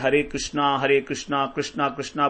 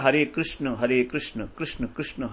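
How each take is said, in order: First: Each Krishna ends with a long 'aa' vowel. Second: Each Krishna ends without a final vowel. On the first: The speaker calls it wrong. "वो ठीक नहीं है।" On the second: The speaker calls it right. "हमें बोलता"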